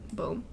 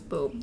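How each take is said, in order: First: It is said quietly. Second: It is said loudly.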